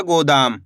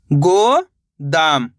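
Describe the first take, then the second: First: Said in the usual way. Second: "गो" held and rising, then "दाम" dropped lower; syllable by syllable. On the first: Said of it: "इनको आपस में मिला के पढ़ना है". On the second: Shown as a demonstration. Teacher sounding out for learners, "गो, दाम" split apart. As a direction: say "गो" and "दाम" as two separate syllables. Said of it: "एक एक अक्षर का उच्चारण करके".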